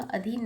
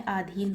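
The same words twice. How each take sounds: First: Said in the usual way. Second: आधीन said slowly with a long आ at the start; correct form said slowly. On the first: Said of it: "अधीन नहीं होता है". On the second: Shown as a demonstration. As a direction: lengthen the first vowel of आधीन. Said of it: "आधीन होता है". (आधीन को धीरे से, लंबे आ के साथ बोलें)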